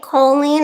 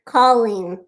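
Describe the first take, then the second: First: "Colleen" with a long O, like coal-een; "Colleen" opening on a round oh sound; first-syllable long O. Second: "Colleen" with an open aw, like call-een; "Colleen" opening on a broad aw sound; first-syllable open AW. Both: Shown as a demonstration. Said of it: "Do you pronounce it Colleen or Colleen?".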